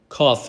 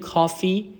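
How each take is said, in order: First: The word ends with an 'ay' sound. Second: The word ends with an 'ee' sound. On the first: The speaker calls it right. "کافه هست" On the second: The speaker calls it wrong. "اینو نگین کافی"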